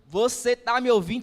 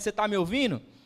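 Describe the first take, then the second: First: It is said louder and more insistently. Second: It is said at a normal volume.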